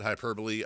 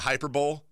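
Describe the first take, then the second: First: It sounds like the usual four-syllable word. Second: It sounds like 'hyper' plus 'bowl'. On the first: The ordinary word. "or you can pronounce it hyperbole" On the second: A playful, made-up name for the show segment. "as I like to call it"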